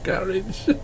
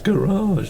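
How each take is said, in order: First: The word is said with a British pronunciation. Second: The word is said with an American pronunciation. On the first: "not garage" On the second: "like the Americans do"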